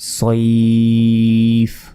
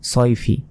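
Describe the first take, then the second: First: The word stops on a bare final consonant. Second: The word ends with a nasal '-in' ending. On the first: Reading stops at this word. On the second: Reading continues past this word.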